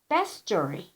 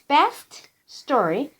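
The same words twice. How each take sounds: First: The two words are linked together. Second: The two words are said separately. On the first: "when you read them together, you say best story" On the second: "it's best story"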